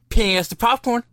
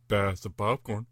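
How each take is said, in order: First: It is said in a normal voice. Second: It is said in a put-on deep voice.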